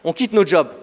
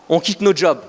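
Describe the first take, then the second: No difference in how they are said.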